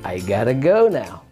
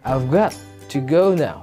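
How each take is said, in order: First: 'I've got to' is reduced to 'I gotta'. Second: 'I have' is shortened to 'I've'. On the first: "Di contraction lagi menjadi I gotta go now" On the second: "di contraction lagi menjadi I've got to go now"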